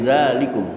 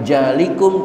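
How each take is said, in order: First: The word begins with a z-like sound. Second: The word begins with a j sound. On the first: The speaker calls it right. "tapi zalikum" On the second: The speaker calls it wrong. "bukan jalikum"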